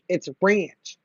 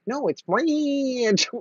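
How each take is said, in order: First: Ranch is said in a plain accent. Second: Ranch is said in a country accent.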